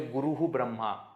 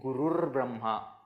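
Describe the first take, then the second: First: The first word ends in a hu sound. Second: The first word ends in an r sound. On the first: The speaker calls it wrong. "We don't say Guruhu Brahma. ... that is wrong" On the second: The speaker calls it right. "we say Gurur Brahma"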